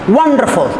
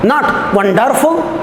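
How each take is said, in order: First: The stress is on the first syllable. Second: The stress is on the second syllable. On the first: The speaker calls it right. "The first one is stressed, the next two are unstressed" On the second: The speaker calls it wrong. "second syllable stressed"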